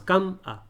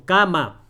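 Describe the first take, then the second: First: "cam-a" broken after the m; wrong syllable split. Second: "cama" as ca-ma, two clear open syllables; correct syllable split. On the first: Teacher showing how we don't talk, split "cam-a". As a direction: close on "cam", then add a lone a in "cam-a". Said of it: "Así no hablamos". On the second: Teacher showing what we say, clear "cama". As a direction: say "cama" in two firm beats, ca, ma. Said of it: "Decimos cama". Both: Shown as a demonstration.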